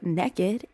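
It is said with a Southern pronunciation.

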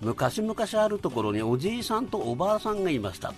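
It is said with Tsugaru dialect intonation.

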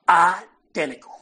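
It is said in an imitated Southern accent.

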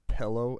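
The first vowel sounds like 'eh', as in pellow. This is the speaker's own regional way of saying it.

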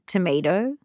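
The word is said in a light American accent. It is said so that listeners understand. "Which I'm saying right. in a lightly American accent"

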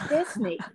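Disney is said with an American accent.

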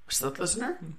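The pitch rises at the end.

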